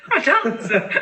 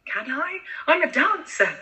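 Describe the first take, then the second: First: Laughing repeat. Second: Laughing protest. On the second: Child insists she is a dancer. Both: Real, not acted.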